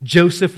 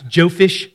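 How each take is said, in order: First: Said in the usual way. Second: Jophish, ending in "fish" for Joseph; child's mispronunciation. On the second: Retold or imitated. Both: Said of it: "close, but not exactly right".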